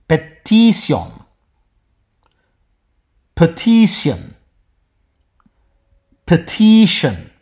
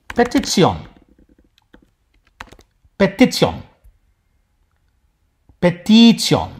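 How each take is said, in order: The two takes are said the same way.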